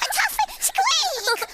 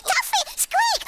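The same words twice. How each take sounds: First: Slow, high, squeaking call to the tuffet; high squeaky call. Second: High squeaky call. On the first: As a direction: draw it out, way up high like a mouse. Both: Shown as a demonstration. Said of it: "Look, I'll show you".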